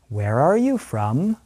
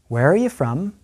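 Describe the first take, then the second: First: The question is spoken at moderate speed. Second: The question is spoken quickly. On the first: "listen and repeat at a slightly faster pace" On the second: "one more time at a fast pace"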